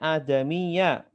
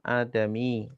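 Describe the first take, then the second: First: The word ends with a final short vowel. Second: The final vowel is dropped at the stop. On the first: This is the full reading within the sentence. "sebenarnya bacanya adamiya" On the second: This is the form used when pausing at the end. "saya matikan adami karena wakaf jadi mati"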